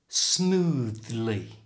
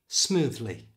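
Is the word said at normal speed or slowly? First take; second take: slowly; normal. First: It is said slowly with a strong th. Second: It is said at normal conversational speed. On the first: "First slowly" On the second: "And now at normal speed"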